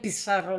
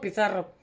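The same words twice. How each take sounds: First: It is said the South American way, with an s sound. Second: It is said the Spanish way, with a th sound.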